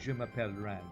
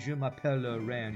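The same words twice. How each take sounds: First: No schwa vowel is sounded after m'appelle. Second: A schwa vowel is sounded after m'appelle. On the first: The speaker calls it right. "You say je m'appelle Rand. You don't pronounce the schwa" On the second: The speaker calls it wrong. "you don't say"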